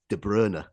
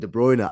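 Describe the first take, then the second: First: The name is said the original way. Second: The name is said the common ingrained way. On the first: This is how the name is really pronounced. The speaker calls it right. "the correct pronunciation is De Bruyne" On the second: This is what everyone has got used to calling him. The speaker calls it wrong. "we're calling him De Bruyne"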